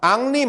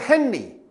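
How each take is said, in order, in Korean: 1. 이 이름은 프랑스식으로 'Ahn-ree'라고 발음합니다. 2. 이 이름은 영어식으로 'Henry'라고 발음합니다. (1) "프랑스에서는 앙리라고 발음합니다" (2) "영국에서는 헨리"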